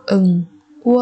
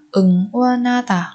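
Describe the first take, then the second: First: 응원하다 with a pause after each syllable. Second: Said in the usual way. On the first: Shown as a demonstration. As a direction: separate every syllable of 응원하다 for learners. Teacher models word syllable by syllable.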